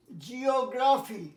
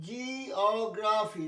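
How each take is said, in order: First: জিওগ্রাফি slowly as one word; slow, clear model of জিওগ্রাফি; e-o pronunciation. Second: জিওগ্রাফি very slowly, with jee and o held apart; e-o broken apart. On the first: Teacher modelling e-o for pupils, জিওগ্রাফি slow and whole. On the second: Teacher showing e-o to pupils, জিওগ্রাফি in drawn-out syllables. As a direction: stretch and separate the opening of জিওগ্রাফি. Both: Shown as a demonstration. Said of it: "ই অ".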